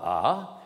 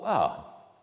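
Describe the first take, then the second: First: A held long, gliding from high to low. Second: A gliding from low to high. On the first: Lecturer demonstrating the high-low tone, falling glide. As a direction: slide the long A downward. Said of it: "le ton haut bas". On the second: Lecturer demonstrating the low-high tone, rising glide. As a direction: slide the A upward from low. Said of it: "le ton bas haut". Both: Shown as a demonstration.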